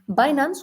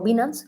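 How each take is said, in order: First: The name is pronounced the English way. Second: The name is pronounced the Spanish way.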